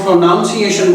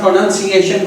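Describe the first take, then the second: First: پروناؤنسیشن with "noun" as its second syllable, in place of "nun"; mispronounced pronunciation. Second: Said in the usual way. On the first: Shown as a demonstration. Teacher showing students a bad habit, mispronouncing پروناؤنسیشن with "noun" inside. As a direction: say پروناؤنسیشن like "pro-NOUN-ciation", with an ow sound. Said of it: "بول رہے ہیں تو that gives a very bad impression". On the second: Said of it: "اگر آپ پروننسیشن کو پروناؤنسیشن بول رہے ہیں".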